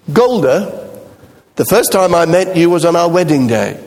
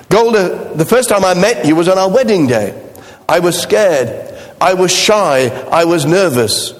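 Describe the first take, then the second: First: Said in the usual way. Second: Higher, half-sung as in the musical; lightly sung. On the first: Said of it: "Tevyev answers by saying". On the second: Retold or imitated. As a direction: croon it like the Fiddler song. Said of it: "those of you remember the song".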